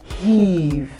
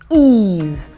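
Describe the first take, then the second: First: The word starts with an h sound. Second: The word starts directly with the vowel. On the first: The speaker calls it wrong. "and not heave" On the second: The speaker calls it right. "or Eve"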